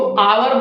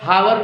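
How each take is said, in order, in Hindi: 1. शब्द की शुरुआत स्वर की ध्वनि से होती है। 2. शब्द की शुरुआत h की ध्वनि से होती है। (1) "एच है वो साइलेंट है तो इसको आवर बोला जाता है" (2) "हावर नहीं बोला जाता"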